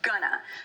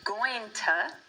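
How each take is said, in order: First: The words merge into one short word. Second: The words are partly shortened and run together. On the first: This is the most casual, fastest form. "going to gets shortened into gonna" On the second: This is a shortened casual form. "that gets shortened to going to"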